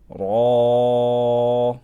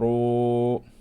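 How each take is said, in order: First: Tongue back raised, lips unrounded, vowel like ah. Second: Lips rounded, vowel sounds like oo. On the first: The speaker calls it right. "Make sure you raise the back of your tongue up" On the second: The speaker calls it wrong. "Don't go ru"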